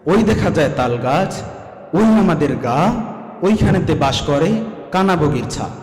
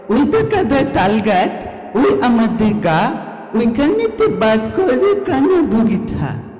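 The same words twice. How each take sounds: First: It is recited in a teacher's careful manner. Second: It is recited in a small child's manner.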